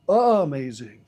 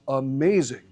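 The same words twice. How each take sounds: First: The stress is on the first syllable. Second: The stress is on the second syllable. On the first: The speaker calls it wrong. "nobody goes around going" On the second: The speaker calls it right. "It's amazing. That's just the way that we pronounce it"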